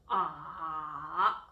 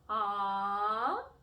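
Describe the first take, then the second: First: The pitch goes low and deep. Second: The pitch rises from lower to higher. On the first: "twisted tone ... try to go low and go deep" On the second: "the second tone is what we call a rising tone"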